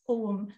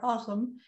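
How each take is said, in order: First: It is said with modern Irish pronunciation. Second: It is said with Old Irish pronunciation. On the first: "in modern Irish pronunciation" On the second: "in Old Irish pronunciation"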